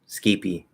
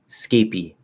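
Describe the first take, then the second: First: It starts with s and ends with an ee. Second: It starts with s and ends with an ee.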